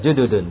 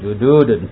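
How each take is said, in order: First: The vowel after the d is short. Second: The vowel after the d is long. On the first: The speaker calls it right. "dalnya enggak panjang" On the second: The speaker calls it wrong. "bukan jududun"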